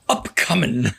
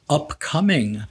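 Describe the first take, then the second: First: The syllables are rushed and run together. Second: The syllables are said separately and clearly. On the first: "the word ran" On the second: "they didn't pronounce it upcoming"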